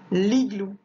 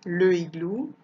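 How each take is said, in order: First: "l'igloo" run together, no e; correct elision. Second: "le igloo" with e and i sounded apart; wrong unelided article. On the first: Teacher gives the correct form, "l'igloo" elided. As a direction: glide l straight into i in "l'igloo". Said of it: "je dis". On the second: Teacher shows what not to say, "le igloo" unelided. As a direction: keep le separate in "le igloo". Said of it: "je ne dis pas". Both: Shown as a demonstration.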